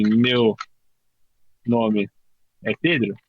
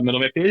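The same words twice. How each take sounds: First: Meu... nome... é Pedro, each word split by long pauses; slow with pauses. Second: Said in the usual way. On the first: Shown as a demonstration. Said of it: "se eu falar assim". (devagar, com pausas entre meu, nome e Pedro) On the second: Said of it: "e falar".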